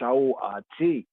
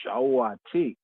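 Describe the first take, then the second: No difference in how they are said.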